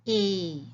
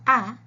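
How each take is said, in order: First: A said as the letter name ay; long a sound. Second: Ah, short open vowel; short a sound. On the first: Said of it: "the long A says". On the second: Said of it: "the short A says ah". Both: Shown as a demonstration.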